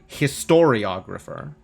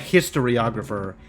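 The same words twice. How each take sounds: First: The stress is on the second syllable. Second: The stress is not on the second syllable. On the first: The speaker calls it right. "the emphasis in historiographer is on the second syllable" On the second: The speaker calls it wrong. "not a historiographer"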